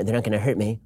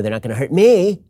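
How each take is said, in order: First: "me" low and unstressed, line falling away softly; no weight on the final "me"; stress off ME. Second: Heavy emphasis landing on "me"; stress on ME. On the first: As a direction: say "they're not gonna hurt me" quietly, letting "me" drop. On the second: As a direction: hit the final "me" hard, pitched up. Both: Shown as a demonstration. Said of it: "depends on where you put the emph".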